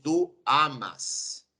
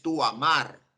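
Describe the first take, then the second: First: "tú amas" drawn out very slowly, weight on "tú", falling at the end; very slow, deliberate "tú amas"; slow correct form. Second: Said in the usual way. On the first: Shown as a demonstration. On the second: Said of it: "tú no dices".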